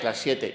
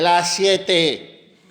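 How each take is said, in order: First: It is said in a plain, neutral tone. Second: It is said in an irritated tone.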